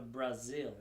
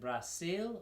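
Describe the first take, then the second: First: The middle consonant is a buzzing Z sound. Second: The middle consonant is a hissing S sound. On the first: "with like the Z" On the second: "with an S"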